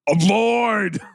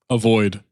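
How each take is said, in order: First: It is said in a put-on character voice. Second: It is said in a plain, normal voice. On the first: The speaker calls it right. "What do you think the voice is?" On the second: The speaker calls it wrong. "You got to do the voice"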